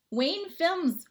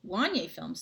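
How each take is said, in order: First: "Wayne Films" read as plain Wayne, wrong; misreading the name as "Wayne". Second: "Wanye" said WAHN-yay, corrected; carefully re-read as "Wanye Films"; corrected name. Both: Real, not acted. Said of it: "Sorry, I thought it said Wayne".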